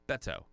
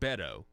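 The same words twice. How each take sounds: First: The T is pronounced clearly and crisply. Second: The T is softened and not clearly pronounced. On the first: The speaker calls it right. "You got to make sure you put the T in there" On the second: The speaker calls it wrong. "you're not supposed to pronounce it Beto"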